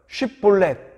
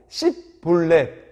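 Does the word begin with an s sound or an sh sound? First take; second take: sh; s. First: The word begins with an sh sound. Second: The word begins with an s sound. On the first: The speaker is not from Ephraim. The speaker calls it right. "이 발음 한번 해봐라" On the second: The speaker is from Ephraim. The speaker calls it wrong. "제대로 발음하지 못하고 씹볼렛 이렇게 발음하면은"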